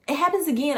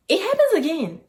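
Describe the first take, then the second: First: Said in the usual way. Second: Happens punched higher and louder; stress on happens. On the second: Real, not acted. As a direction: hit happens hard.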